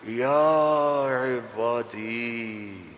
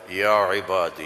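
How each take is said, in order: First: It is said in a tender, loving tone. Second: It is said in a flat, plain tone.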